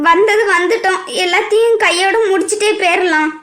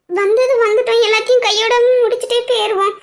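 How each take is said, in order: First: Said in the usual way. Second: Mock repeat. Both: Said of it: "எல்லாரும் சொல்றாங்களா?".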